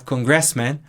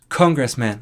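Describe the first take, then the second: First: It is said with a Portuguese-influenced pronunciation. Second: It is said with an English pronunciation. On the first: The speaker calls it wrong. "em vez de a gente falar congressman" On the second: The speaker calls it right. "o que é a, a, a, a pronúncia certa"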